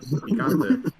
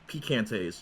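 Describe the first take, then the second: First: The word ends on a vowel, no s. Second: The word ends with an added s sound. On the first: The speaker says it this way. The speaker calls it right. "And I'm like picante" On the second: Someone else says it this way. The speaker calls it wrong. "they're like picantes"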